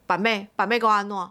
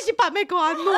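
First: Sneering Taiwanese taunt; mock the name like the rude caller. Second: High, giggling quote of the taunt; laughing retelling. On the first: Rude caller taunting the famous seller, mild sneer. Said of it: "然后就回我说". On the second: Retold or imitated. Retelling the caller to friends, high and giggling. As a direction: laugh through the caller's line. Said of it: "他说".

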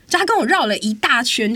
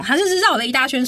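First: Annoyed stress on 跟; stressed retelling. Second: Exasperated stress on 绕; stressed retelling. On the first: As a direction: lean into 跟 in 就他跟我绕了一大圈. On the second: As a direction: stress on 绕, said higher. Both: Real, not acted.

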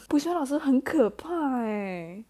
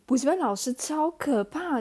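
First: Slow, louder, rising on 补习班; slow emphatic. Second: Higher and louder, rising at the end on 补习班; exaggerated fright. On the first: Shown as a demonstration. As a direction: draw out 补习班老师很可怕欸 with weight on 补. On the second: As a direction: stress 补习班 and make 超可怕 sound scary.

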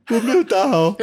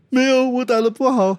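First: High, loud mock wail; imitating a distressed young boxer; upset boy. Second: High, loud mock whine; imitating a boxer refusing comfort; upset boy. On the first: Coach acting out the boxer upset after his match, high mock wail. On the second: Coach acting out the boxer rejecting his praise, high mock wail. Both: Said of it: "他难过啊".

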